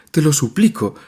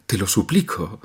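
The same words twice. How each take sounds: First: Higher and louder, begging hard; desperate plea. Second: Fading plea. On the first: Nadia begging her mother to let her leave, desperate. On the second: Nadia repeating her plea to her mother, spent. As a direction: let the repeat die in tears. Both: A narrator's reading. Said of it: "profirió entre sollozos".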